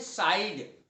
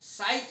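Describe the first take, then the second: First: The word ends with a d sound. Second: The word ends with a t sound. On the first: The speaker calls it wrong. "लोग बोलते हैं साइड।" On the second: The speaker calls it right. "साइट ही शब्द होता है।"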